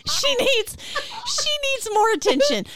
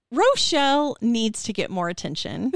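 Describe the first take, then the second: First: Much higher, pressing hard on "she" in "she needs more attention"; mock insistence. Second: Laughing. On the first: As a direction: sell it, hitting "she" high each time. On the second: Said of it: "all I could think of was". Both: Real, not acted.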